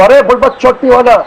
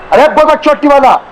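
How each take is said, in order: First: It is said flatly, without acting it out. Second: It is shouted angrily, acted as in the scene.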